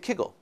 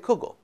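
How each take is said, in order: First: The first vowel sounds like ee. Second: The first vowel sounds like oo. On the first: This is the Lithuanian Yiddish form. "In Lithuanian, they say kigel" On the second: This is the Polish Yiddish form. "In Poland, they say kugel"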